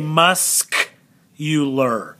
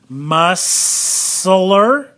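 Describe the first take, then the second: First: The C in the middle is sounded. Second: The C in the middle is silent. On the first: The speaker calls it right. "We say muscular" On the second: The speaker calls it wrong. "We don't say that, do we?"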